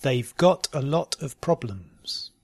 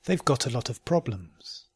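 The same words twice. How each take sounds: First: "They've got a lot of problems" slowly, spaced out. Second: "They've got a lot of problems" run together quickly. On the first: Teacher giving learners a sentence to try, slowly. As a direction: take your time over "They've got a lot of problems". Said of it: "first slowly and then". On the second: Teacher repeating the practice sentence, quickly. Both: Shown as a demonstration.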